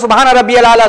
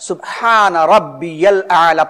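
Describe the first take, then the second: First: The phrase is rushed and the words run together. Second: The phrase is said slowly with each word clear. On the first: The prayer is said without calm attention. The speaker calls it wrong. "अगर हमने सुकून से नहीं पढ़ा" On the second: The prayer is said with calm attention. The speaker calls it right. "सही प्रोनाउंसिएशन के साथ, सुकून के साथ"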